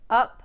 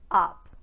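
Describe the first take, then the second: First: The vowel is a short relaxed uh sound. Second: The vowel is a wider open ah sound. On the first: "the uh sound in words like up" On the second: "turning it into ah"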